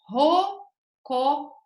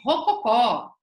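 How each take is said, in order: First: The word is said slowly. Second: The word is said fast.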